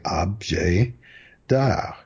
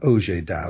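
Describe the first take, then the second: First: The b sound in objet is pronounced. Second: The b sound in objet is left out. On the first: The speaker calls it right. "French people say objet d'art with the B" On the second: The speaker calls it wrong. "Ob is the first syllable, not objet d'art"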